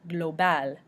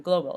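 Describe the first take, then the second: First: Global as gloh-BAL, stressed at the end; French pronunciation. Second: Said in the usual way. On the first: Shown as a demonstration. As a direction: say Global the French way with a full final AL. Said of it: "L is also pronounced at the end". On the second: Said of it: "meaning global, of course".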